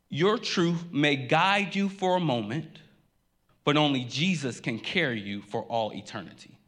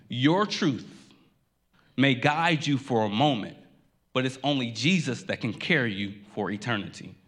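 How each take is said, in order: First: Slowed, rising on "Your truth may guide you", then settling; the pastor's big idea, laid out slow to the congregation; slow first statement. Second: "Your truth" alone, a pause, then "may guide you for a moment"; repeated with pauses. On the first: Preacher gives the main line slowly, rising. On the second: Pastor repeats his sermon in a sentence, phrase by phrase. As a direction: break the repeat into separate weighty phrases. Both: Shown as a demonstration. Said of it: "I want to say that one more time".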